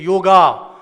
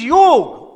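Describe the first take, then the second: First: The word ends with an 'a' vowel. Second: The word ends with the consonant 'g'. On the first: The speaker calls it wrong. "people say yoga" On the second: The speaker calls it right. "It is yog"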